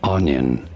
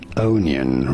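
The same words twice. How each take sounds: First: It is pronounced the usual way, first syllable stressed. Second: It is pronounced the way the spelling suggests. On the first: The speaker calls it right. "it is normally said as onion" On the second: The speaker calls it wrong. "it may look like it should be said onion"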